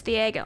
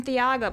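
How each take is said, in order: First: "Thiago" with an AY in the middle, tee-AY-go; corrected name. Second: "Thiago" with an AH in the middle, tee-AH-go; mispronounced name. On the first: Host correcting the name for its owner, "Thiago" said tee-AY-go. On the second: Host admitting the old mistake, "Thiago" said tee-AH-go. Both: Shown as a demonstration. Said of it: "I've been saying your name wrong".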